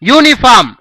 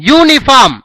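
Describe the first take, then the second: No difference in how they are said.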